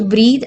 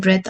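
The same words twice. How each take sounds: First: "breathe" with long ee and voiced ending; verb pronunciation. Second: "breath" with short e and hard t ending; noun pronunciation. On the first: Teacher comparing the two words, "breathe" with long ee. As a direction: say "breathe" as breed. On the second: Teacher comparing the two words, "breath" with short e. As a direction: say "breath" as bret. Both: Shown as a demonstration. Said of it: "are different in terms of pronunciation".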